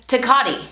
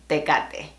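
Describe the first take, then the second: First: Tecate as tuh-KAH-tee; English-style Tecate, ending in ee; anglicized Tecate. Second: Tecate with pure e, teh-KAH-teh; Spanish Tecate. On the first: Teacher showing how some wrongly say Tecate. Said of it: "as some would say". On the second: Teacher modelling the original Spanish Tecate. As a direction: end Tecate on a clean e. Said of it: "original pronunciation is". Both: Shown as a demonstration.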